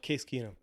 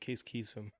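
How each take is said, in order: First: The surname has an n sound in the middle. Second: The surname has an s sound in the middle. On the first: The speaker calls it right. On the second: The speaker calls it wrong.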